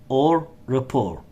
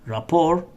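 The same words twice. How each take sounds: First: "rapport" said ruh-POR with the T silent; "rapport" ending on R with no T sound. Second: "Rapport" said ra-POR with the T silent. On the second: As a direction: say "Rapport" ending on the vowel, no T. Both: Shown as a demonstration. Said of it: "the letter T, is silent".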